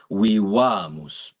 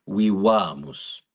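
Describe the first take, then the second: First: Vivamus slowly with the a held long; long stressed a. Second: Slow vivamus, long held a; stressed long a. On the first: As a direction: hold the a in vivamus. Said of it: "is held longer". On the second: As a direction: stretch the a in vivamus. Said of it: "the "a" is held longer". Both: Shown as a demonstration.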